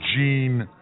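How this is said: The name is said with an American pronunciation. The speaker calls it wrong. "we Americans say Jean"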